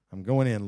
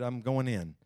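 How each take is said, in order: First: Pushed out louder, with rising determination; louder repeat. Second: Said in the usual way. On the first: Acted. Hannah pressing into prayer, louder determined declaration. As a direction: declare it the second time with force.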